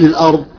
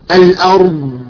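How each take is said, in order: First: The final consonant ends with an audible puff of breath. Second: The final consonant is held, prolonged, with no release. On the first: The speaker calls it wrong. "يخرج معها نفس" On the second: The speaker calls it right. "هذا استطالة، صوت استطالة من داخل"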